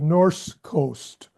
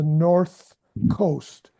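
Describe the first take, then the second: First: The first word ends with an s sound. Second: The first word ends with a th sound. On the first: The speaker calls it wrong. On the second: The speaker calls it right.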